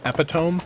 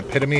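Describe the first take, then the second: First: It is pronounced the way it is spelled. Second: It is pronounced the standard way.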